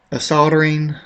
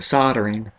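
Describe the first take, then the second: First: "soldering" with the L sounded; soldering pronunciation. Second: "soldering" with a silent L; alternative pronunciation. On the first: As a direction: say "soldering" as SOL-der-ing. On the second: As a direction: say "soldering" as SOD-er-ing, questioning. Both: Shown as a demonstration. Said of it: "or is it soldering?".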